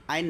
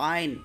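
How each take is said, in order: First: আইন as an everyday word, short; wrong pronunciation. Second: আইন squeezed out from the throat. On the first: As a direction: say আইন without the throat sound. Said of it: "আইন না". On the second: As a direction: draw আইন out as Arabic "'ayn". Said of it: "গলা থেকে বের করবেন". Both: Shown as a demonstration.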